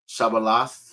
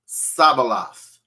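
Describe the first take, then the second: First: The word begins with a 'sh' sound. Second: The word begins with an 's' sound. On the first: The speaker calls it right. "let me show you" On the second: The speaker calls it wrong. "He couldn't pronounce it. He used the Samach character"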